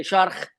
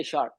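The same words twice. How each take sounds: First: "shark" ending in a throaty kh; Scouse final K. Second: Said in the usual way. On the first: Shown as a demonstration. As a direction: rasp the last k of "shark" into kh. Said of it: "they say shark". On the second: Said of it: "they don't say shark".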